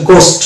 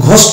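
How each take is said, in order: First: গোস্ট with a plain hard g, silent h; গোস্ট opening on unaspirated g; correct pronunciation. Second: ঘোস্ট with a breathed, aspirated gh; wrong pronunciation. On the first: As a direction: say গোস্ট without any puff after the g. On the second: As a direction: say ঘোস্ট with the h heard after the g. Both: Shown as a demonstration. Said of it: "এটা হচ্ছে ভুল উচ্চারণ".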